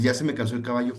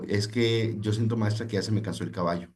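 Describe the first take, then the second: First: Said in the usual way. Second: Weary student. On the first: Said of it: "¿qué significa?". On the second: Retold or imitated. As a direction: lightly voice a tired teenager giving up. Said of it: "un estudiante le dijo". (estudiante cansado que habla despacio a la maestra)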